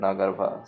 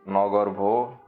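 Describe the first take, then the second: First: The word ends with an 'ah' vowel sound. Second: The word ends with an 'oh' vowel sound. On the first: This is the Hindi pronunciation. "in general in Hindi I think it should be Nagarba" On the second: This is the Bengali pronunciation. "in Bengali it should be like Nagarbho"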